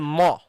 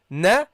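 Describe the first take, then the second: First: The syllable sounds thick and heavy. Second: The syllable sounds thin and light. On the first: The speaker calls it wrong. "That's heavy" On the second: The speaker calls it right. "That's how it should be pronounced because it's a fatha"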